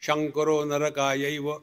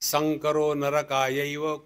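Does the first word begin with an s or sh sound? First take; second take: sh; s. First: The first word begins with an sh sound. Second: The first word begins with an s sound. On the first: The speaker calls it wrong. "Bengali उवाच" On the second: The speaker calls it right. "तो श्लोक था"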